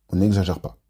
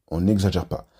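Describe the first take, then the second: Both takes have the same delivery.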